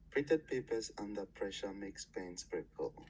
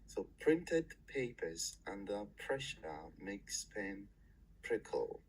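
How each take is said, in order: First: It is said more quickly. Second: It is said slowly.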